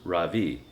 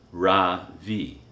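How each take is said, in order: First: The stress is on the second syllable. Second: The stress is on the first syllable. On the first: It means the sun. The speaker calls it right. "with a soft R and a strong V" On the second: It means nothing. The speaker calls it wrong. "with the stress on the first syllable"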